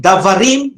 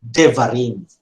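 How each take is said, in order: First: "davarim" with a clear open a first; unreduced davarim. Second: "devarim" with a schwa-like e first; reduced devarim. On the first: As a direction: say "davarim", keeping the first vowel a full a. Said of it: "instead of saying davarim". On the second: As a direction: say "devarim", first vowel cut to a short e. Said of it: "you will say devarim". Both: Shown as a demonstration.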